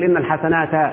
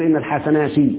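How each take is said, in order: First: The last word ends with an 'a' vowel. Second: The last word ends with an 'i' vowel. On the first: The speaker calls it wrong. "ما ينفعش تقول" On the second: The speaker calls it right. "لازم تقول"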